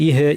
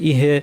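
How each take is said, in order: The two takes are said the same way.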